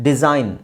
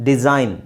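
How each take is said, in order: The two takes are said the same way.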